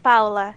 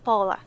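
First: The first syllable does not sound like 'Paul'. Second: The first syllable sounds like 'Paul'. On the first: The speaker calls it right. "It is pronounced more like Paula" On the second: The speaker calls it wrong. "they pronounced the first part like Paul"

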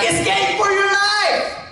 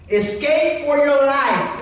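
First: It is exclaimed loudly and urgently. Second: It is read calmly, without exclamation.

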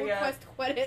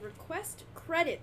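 First: The sounds run together and come out slurred. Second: Each sound is carefully and clearly enunciated. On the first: The speaker calls it wrong. "otherwise it comes out request credit" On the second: The speaker calls it right. "I have to enunciate so hard"

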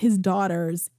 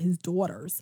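First: It is said in the speaker's usual accent. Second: It is said with a New York accent.

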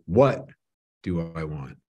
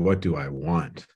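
First: The stress falls on the word 'what'. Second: The stress falls on the word 'want'.

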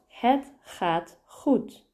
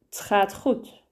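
First: The word het is pronounced fully and clearly. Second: The word het ends in a very soft t.

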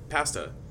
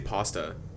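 First: The first vowel sounds open, like 'ah'. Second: The first vowel sounds rounded, like 'aw'. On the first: The speaker calls it right. "You said it like with an A, the way it should be pronounced" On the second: The speaker calls it wrong. "Do you know how Americans pronounce that word? They say pasta"

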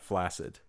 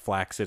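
First: The double C is said as 's'. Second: The double C is said as 'ks'. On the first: The speaker calls it wrong. "and not flaccid" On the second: The speaker calls it right. "should be pronounced flaccid"

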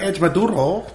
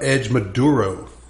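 First: It is said in a put-on Colombian accent. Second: It is said in his plain accent.

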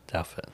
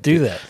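First: The name does not sound like 'do that'. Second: The name sounds like the phrase 'do that'. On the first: The speaker calls it right. "How do you pronounce it?" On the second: The speaker calls it wrong. "I always thought it was do that"

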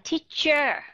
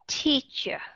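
First: The final syllable is said fully and clearly. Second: The final syllable is a light, reduced schwa. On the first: The speaker calls it wrong. "mà không phải là teacher" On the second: The speaker calls it right. "mà không phải là teacher"

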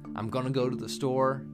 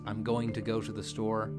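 First: The words 'going to' are reduced to 'gonna'. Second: The words 'going to' are said in full.

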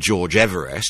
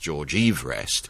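First: Everest is said in its familiar way. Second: Everest is said in an unfamiliar way.

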